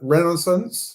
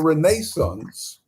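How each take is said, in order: First: It is said with an attempted American accent. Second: It is said with a British English accent. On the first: "I can never say it the American way. A rena- renaissance, is that the way?" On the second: "Let me say it my English way"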